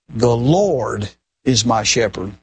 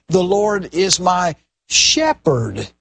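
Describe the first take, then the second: First: The stress is on the word Lord. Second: The stress is on the word shepherd.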